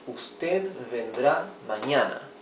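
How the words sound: The voice falls at the end like a statement. It states that the person will come tomorrow. "this will already be uh, an affirmative sentence"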